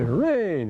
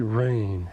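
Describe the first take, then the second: First: It is said in a glad, relieved tone. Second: It is said in a disgusted tone.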